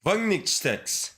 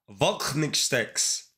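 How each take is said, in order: First: Wagnixtex sounded out slowly, syllable by syllable, with a German V; slow careful German name. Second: Voknixtex said slowly with a crisp T before the final syllable; corrected pronunciation. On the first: Reading a viewer's German name aloud, slowly sounding it out. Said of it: "How do you say your name?". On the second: Told to pronounce the T, streamer tries the name slowly. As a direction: carefully land the T in Voknixtex. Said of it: "You have to pronounce the T". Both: Shown as a demonstration.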